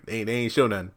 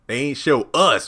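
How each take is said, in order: First: Said in the usual way. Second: "us" drawn out and loud; stress on us. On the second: Real, not acted. Host clarifying who saw nothing, "us" stressed. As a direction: land hard and slow on "us".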